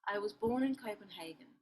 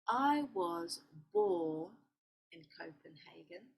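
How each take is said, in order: First: The sentence is read at normal speed. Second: The sentence is read slowly and carefully.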